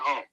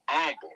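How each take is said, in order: First: The word starts with an H sound. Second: The word starts without an H sound. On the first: The person still has a little pride. The speaker calls it wrong. "If you got the H in there, you you ain't humble" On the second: The person is truly humble. The speaker calls it right. "You gotta take the H out"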